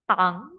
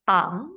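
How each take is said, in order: Both takes have the same delivery.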